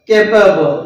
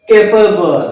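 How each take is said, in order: The two takes are said the same way.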